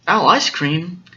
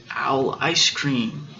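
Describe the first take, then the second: First: Mildly alarmed owl question; acted surprise, rising at the end; startled echo. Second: Said in the usual way. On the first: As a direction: echo it in storybook disbelief.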